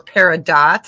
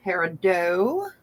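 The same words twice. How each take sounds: First: Peridot ending in DOT, T sounded; sounded final T. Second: Peridot ending in a long OH, silent T; French-style ending. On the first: Seller offering the other pronunciation, peridot rhyming its end with dot. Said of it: "Some people say peridot". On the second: Seller naming the gem to buyers, peridot with silent-T OH ending. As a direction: say peridot as pair-uh-DOH. Gives two pronunciations of the word. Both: Shown as a demonstration.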